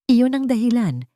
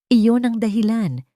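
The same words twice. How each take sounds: The two takes are said the same way.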